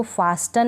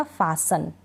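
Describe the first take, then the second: First: "फास्टन" with the T sounded; mispronounced "फास्टन", T not silent; wrong pronunciation. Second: "फासन" with a silent T; lower-pitched model "फासन", no T; correct pronunciation. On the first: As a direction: say a T after S in "फास्टन". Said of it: "फास्टन नहीं पढ़ा जाएगा". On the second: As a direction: drop the T from "फासन". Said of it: "टी यहाँ पढ़ा ही नहीं". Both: Shown as a demonstration.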